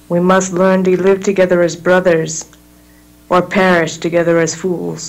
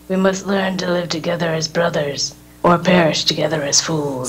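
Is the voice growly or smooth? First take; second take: smooth; growly. First: The voice is smooth, without a growl. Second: The voice is rough with a heavy growl. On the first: The speaker calls it wrong. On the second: The speaker calls it right.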